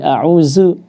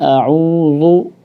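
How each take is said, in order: First: The middle consonant is a z sound. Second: The middle consonant is a thick emphatic dh. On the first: "baca dengan zai" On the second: "ketika ditebalkan a'udzu maka berubah menjadi dha"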